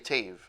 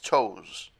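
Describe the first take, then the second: First: The name rhymes with waves. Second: The name sounds like the word toes. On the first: This is how some people actually say the name. "some people say Tave" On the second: This is the reading the spelling suggests. "To me, that's it's toes"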